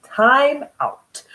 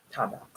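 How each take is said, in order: First: High, loud call for time out. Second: Low, quiet time out; soft time out. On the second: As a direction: murmur time out. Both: Shown as a demonstration.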